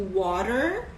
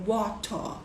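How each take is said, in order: First: American "water", tapped middle, r-coloured ending; American accent. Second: WATER in British English, crisp t, no final r; British "water" with a true t; British accent. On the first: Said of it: "no inglês americano". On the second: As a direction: say WATER as in England, ending in an open vowel. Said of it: "no inglês britânico da Inglaterra". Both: Shown as a demonstration.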